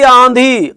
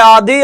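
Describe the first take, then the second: First: आंधी with a long nasal आ; stretched आंधी, first vowel through the nose; nasalised demo. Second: आधी with a plain oral आ; slow आधी without nasalisation; no nasal sound. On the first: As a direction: say आंधी slowly as "ãã-dhee". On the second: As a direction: say आधी as "aa-dhee", drawn out. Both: Shown as a demonstration. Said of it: "आधी, आंधी".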